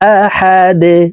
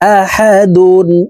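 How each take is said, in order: First: The word ends on a bare 'd' consonant. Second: The word ends with the syllable '-dun'. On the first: The reader stops on this word. "ওয়াকফের ক্ষেত্রে সাকিন করে ফেলবো" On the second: The word is read connected, without stopping. "দাল দুই পেশ দুন আহাদুন"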